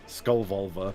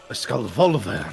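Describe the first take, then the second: First: It is said with a British accent. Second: It is said with an Italian accent.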